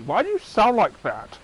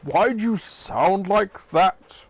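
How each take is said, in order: First: You hit, higher; stress on you. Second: Slow, stressing why; why leaned on, puzzled. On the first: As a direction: land on the word you. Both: Acted.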